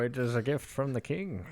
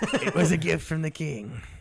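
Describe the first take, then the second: First: It is said in his own normal voice. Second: It is said in a different, put-on voice.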